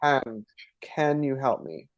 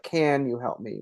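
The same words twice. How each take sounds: First: "can you help me?" with a flat western "can", not nasalized. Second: "can you help me" with "can" nasalized, the eastern way; nasal eastern can. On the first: Demonstrating the western accent for a friend, flat "can" drawled slowly. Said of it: "it's more like". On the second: Showing her own eastern accent to a friend, nasal "can". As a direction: push "can" into the nose like an Ontarian. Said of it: "which is what I would say". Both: Shown as a demonstration.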